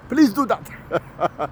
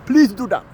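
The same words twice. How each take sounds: First: Very slow mocking plea. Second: Said in the usual way. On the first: Ranter begs Europe slowly in a mock pleading voice. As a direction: drag "Please do that." out slowly, pleading.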